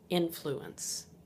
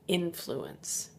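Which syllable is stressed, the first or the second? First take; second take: first; first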